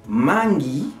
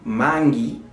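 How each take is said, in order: Both takes have the same delivery.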